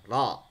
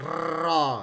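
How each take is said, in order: First: The r is trilled with only a few taps. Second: The r is trilled for a long time. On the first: The speaker calls it right. "Cuman beberapa getaran saja" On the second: The speaker calls it wrong. "tidak boleh getarnya lama"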